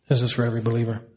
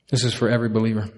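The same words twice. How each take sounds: First: This weighted and slowed; stress on this. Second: Quick first pass; fast take. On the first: Pastor repeating it to the congregation, stressing This. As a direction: lean on This, steady. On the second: Pastor rushing the line to his congregation, fast. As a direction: rattle it off quickly. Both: Shown as a demonstration.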